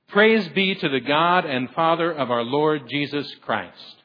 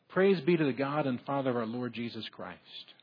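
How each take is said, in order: First: The phrase is said at a moderate volume. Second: The phrase is said quietly, without much volume. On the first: "That was okay" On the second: "probably if I would have said that like it should be, it would have scared you"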